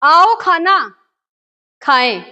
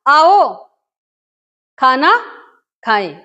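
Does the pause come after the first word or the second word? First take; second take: second word; first word. First: There is a pause after the second word. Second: There is a pause after the first word. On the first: No one is being invited to eat. "हम आपको नहीं बुला रहे हैं, आओ खाना" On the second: The listener is invited to come and eat together. "मतलब आओ ठहरा, चिन्ह लगाया, खाना खाएं"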